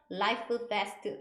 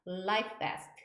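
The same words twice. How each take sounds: First: "life vest" in separated pieces, each final consonant released; disconnected words. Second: "life vest" run together as one word; linked pronunciation. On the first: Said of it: "이렇게 하시면 어려워요". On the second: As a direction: glide from the f of "life" straight into "vest". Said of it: "그냥 연음으로 발음하셔야 돼요". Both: Shown as a demonstration.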